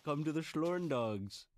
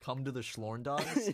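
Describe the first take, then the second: First: Slow, beckoning fake German; mock German accent. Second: Slow "Come to the Schlorn dogs?", rising on "dogs"; questioning echo. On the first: Inviting co-host to invented mountains, mock German accent. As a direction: invite them slowly in a put-on German accent. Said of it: "I am your typical German subject". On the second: Real, not acted. Co-host querying "Schlorn dogs", slow rising question.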